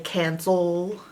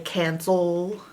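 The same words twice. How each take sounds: First: The second vowel is a weak schwa sound. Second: The second vowel is a weak schwa sound.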